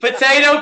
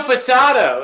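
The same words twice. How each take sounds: First: Potato with a long a, po-tay-to. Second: Potato with an ah, po-tah-to; potato, broad a. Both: Shown as a demonstration. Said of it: "It's just the way I pronounce it".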